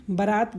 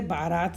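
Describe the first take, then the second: First: बारात with a short first vowel, 'ba-raat'; wrong pronunciation. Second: बारात with a long first vowel, 'baa-raat'; correct pronunciation. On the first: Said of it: "बारात गलत शब्द है". (बारात का गलत उच्चारण, 'बरात') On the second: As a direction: lengthen the opening of बारात to 'baa'. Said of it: "बारात सही है". (बारात का शुद्ध उच्चारण, लंबे 'बा' से) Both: Shown as a demonstration.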